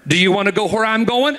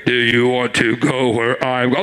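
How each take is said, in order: First: Said in the usual way. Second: Booming voice of God. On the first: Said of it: "that's God talking out of me". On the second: Retold or imitated. Preacher to congregation, God's voice as he did not hear it, a deep boom. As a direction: thunder it out like God from the sky. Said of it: "And I didn't hear".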